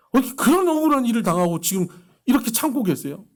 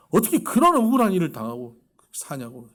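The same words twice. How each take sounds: First: "어떻게 그런 억울한 일을" shouted high and loud in outrage; angry outburst. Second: Said in the usual way. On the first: Retold or imitated. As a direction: fume at the injustice, voice raised. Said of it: "듣는 저도 화가 나는 거예요". ("그런"에 힘주어 높고 크게 분노하며) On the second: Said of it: "같이 화가 나는 거예요".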